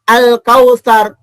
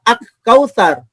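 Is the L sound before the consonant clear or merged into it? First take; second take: clear; merged. First: The L sound is pronounced clearly before the K. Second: The L sound merges into a doubled K. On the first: The speaker calls it right. "Begitu juga bacanya al-kautsar" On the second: The speaker calls it wrong. "enggak baca ak-kautsar"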